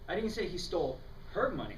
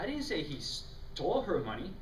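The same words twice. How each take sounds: First: The stress falls on the word her. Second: The stress falls on the word stole.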